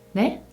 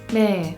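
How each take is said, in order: First: It is short and clipped, rising at the end. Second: It is said flat, not rising like a question.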